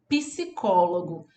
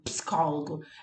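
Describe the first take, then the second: First: An extra i vowel follows the P. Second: The P runs straight into the S. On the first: This is how people from Bahia say it. "eu digo assim, ó, psicólogo. É da Bahia" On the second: This follows the spelling. "não tem esse i depois do pi"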